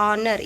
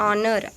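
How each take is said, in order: No difference in how they are said.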